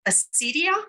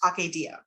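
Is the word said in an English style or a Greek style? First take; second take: English style; Greek style. First: It is said in an English-style pronunciation. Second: It is said in a Greek-style pronunciation. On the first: "depending on how you pronounce it, it's called Acedia" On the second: "as my Greek scholar friend tells me, it's pronounced Akedia"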